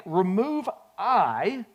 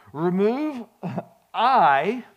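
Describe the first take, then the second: First: Slow "remove I" rising at the end. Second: Slow, stretched "remove I" with a laugh. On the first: Preacher repeating the key step to the church, slow and stressed. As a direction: draw out "remove I" with a rising finish. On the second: Preacher telling the church how to think of their choices, slow stressed reveal. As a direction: lean on "I" and let it rise. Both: Real, not acted. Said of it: "I'm getting ready to say this".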